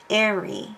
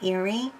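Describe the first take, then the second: First: The first vowel is an 'eh' sound. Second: The first vowel is not an 'eh' sound. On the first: The speaker calls it right. "The first E says eh" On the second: The speaker calls it wrong. "it isn't pronounced that way"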